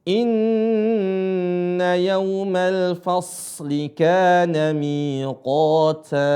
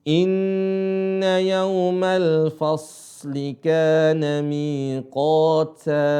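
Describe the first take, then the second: The two takes are said the same way.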